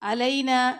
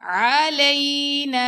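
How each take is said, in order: First: It begins with a plain vowel sound. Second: It begins with a throaty 'ain' sound. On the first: The speaker calls it wrong. "तो ये सही नहीं है" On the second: The speaker calls it right. "आइन का मखरज है"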